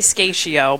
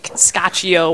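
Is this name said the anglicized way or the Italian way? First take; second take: anglicized; Italian. First: The name is said with anglicized sounds. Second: The name is said with Italian sounds. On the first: This is how the family says it. The speaker calls it wrong. "We say Scaccio" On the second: This is how it is supposed to be said. The speaker calls it right. "it's supposed to be like Scaccio"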